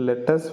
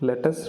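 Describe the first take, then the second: No difference in how they are said.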